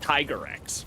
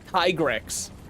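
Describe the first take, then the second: First: The first part sounds like 'tiger'. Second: The first part sounds like 'tigre'. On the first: The speaker calls it wrong. "not Tiger X" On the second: The speaker calls it right. "it's uh tigre, not tiger"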